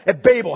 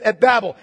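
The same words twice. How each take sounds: First: "Babel" with a long A, rhyming with "label". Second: "Babel" with a short A, rhyming with "rabble". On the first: Preacher offering the other pronunciation of "Babel", first syllable like "bay". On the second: Preacher offering one pronunciation of "Babel", first syllable as in "cab". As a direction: say "Babel" as BABB-ul. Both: Shown as a demonstration. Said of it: "however you want to pronounce it".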